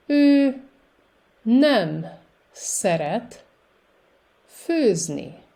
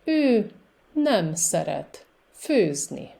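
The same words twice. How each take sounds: First: Word by word with long pauses; very slow. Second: Words run together, smoother flow; a bit faster. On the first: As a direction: lay each word out for a learner. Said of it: "I will say it very slowly". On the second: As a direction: say it at a livelier pace. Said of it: "with a little more speed". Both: Shown as a demonstration.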